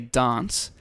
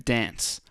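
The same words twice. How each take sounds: First: It is said in a British accent. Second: It is said in an American accent. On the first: This is how the speaker normally talks. "I tend to say dance" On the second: This is how the speaker sings. "very Aussie or very American"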